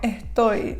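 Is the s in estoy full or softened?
Softened. The s is softened and breathy.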